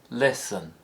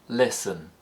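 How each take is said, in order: The two takes are said the same way.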